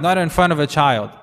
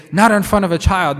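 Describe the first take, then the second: First: Said in the usual way. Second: Higher and louder, not punched hard; mock alarm at grown-up talk; scandalised warning. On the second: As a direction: hush them sharply like a shocked adult. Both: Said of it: "people say".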